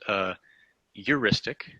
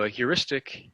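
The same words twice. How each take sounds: First: It is said the East Coast way. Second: It is said in the speaker's usual way.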